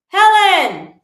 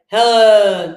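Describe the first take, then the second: First: The name is called with extra carrying energy. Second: The name is said in a low, non-carrying pitch. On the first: The speaker calls it right. "There's just a little more oomph in your voice" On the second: The speaker calls it wrong. "that's not going to carry"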